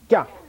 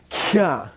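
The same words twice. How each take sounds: First: The syllable is said with a high, hard pitch. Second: The syllable is said with a low, soft pitch. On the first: The speaker calls it right. "Don't forget high, hard" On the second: The speaker calls it wrong. "Don't say, kya"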